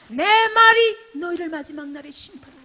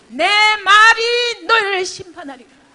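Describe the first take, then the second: First: Higher and louder; firm repeated warning. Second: Much higher, louder and slower; thundering slow warning. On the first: Pastor repeating the judgment, a firm loud warning. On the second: Pastor warning of judgment, thundering and slow. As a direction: roar the judgment out word by word. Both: Shown as a demonstration.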